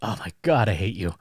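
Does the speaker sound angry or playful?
playful. It is said in a joking, teasing tone. The speaker doesn't really mean it. "they're kidding around"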